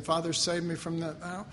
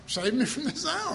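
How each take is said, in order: First: Said in the usual way. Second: Higher, pleading mock of our prayer; whiny mock prayer. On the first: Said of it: "but Jesus says". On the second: Preacher mocking how we pray, pleading and high. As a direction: beg it like a half-hearted believer. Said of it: "Just like".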